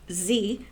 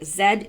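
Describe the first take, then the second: First: The letter is said as zee, American style. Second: The letter is said as zed, Canadian style.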